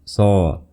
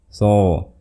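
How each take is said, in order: The two takes are said the same way.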